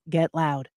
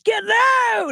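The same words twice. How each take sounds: First: It is said flat, with no inflection. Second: It is said with lively, energetic inflection. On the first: "And I'd say it just like that" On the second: "it's not like"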